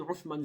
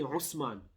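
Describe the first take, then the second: First: The middle consonant is a th sound. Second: The middle consonant is an s sound. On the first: The speaker calls it right. "they don't say Uthman" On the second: The speaker calls it wrong. "they say Usman"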